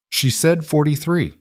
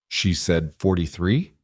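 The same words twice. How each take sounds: First: High-pitched insistence, falling at the end of "forty-three"; "She said forty-three." as a firm, high statement with a final drop; emphatic confirmation. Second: Slow, rising question on "forty-three"; "She said forty-three?" as a slow check, lifting at the end. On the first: Boy confirming the teacher's mistake, emphatic fall on "forty-three". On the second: Tutor checking the boy's claim, questioning rise on "forty-three". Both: A narrator's reading.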